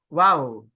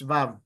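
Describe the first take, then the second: First: The letter name starts with a w sound. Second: The letter name starts with a v sound. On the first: This is the speaker's own pronunciation. "Tapos sa akin ay wow" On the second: This is the European pronunciation. "Or yung European is vav"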